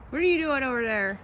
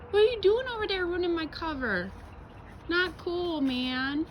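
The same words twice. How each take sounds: First: Raised call across the yard; calling to the dog. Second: Squeaky scolding of the dog; high-pitched scolding. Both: Real, not acted.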